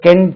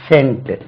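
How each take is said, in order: First: The word begins with a k sound. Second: The word begins with an s sound. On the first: The speaker calls it wrong. "தெரியாம இருந்தால் நம்ம கென்ட் என்று சொல்லுவோம்" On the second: The speaker calls it right. "ஒரு இடத்துல இது சா என்று உச்சரிக்கிறது"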